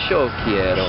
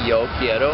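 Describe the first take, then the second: First: The 'y' is said like English 'sh'. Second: The 'y' is said like English 'y'. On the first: This is how it is said locally. "we say" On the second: This is how it is usually said elsewhere. "instead of saying"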